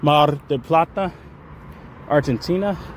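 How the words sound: It is said with a Spanish accent.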